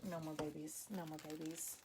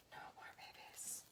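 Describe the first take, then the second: First: Softer, firm repeat of no more babies; quiet insistence. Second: Breathy whisper trailing off. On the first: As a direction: say it low, half to yourself. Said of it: "repeats, fading". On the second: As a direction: drop to a whisper, like a private vow. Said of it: "repeats, fading to whisper". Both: Real, not acted.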